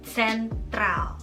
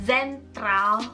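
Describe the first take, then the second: First: The word begins with a ts sound. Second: The word begins with a plain z sound. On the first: The speaker calls it right. "tapi sentral. Jadi kayak ada c c c" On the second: The speaker calls it wrong. "bukan zentral"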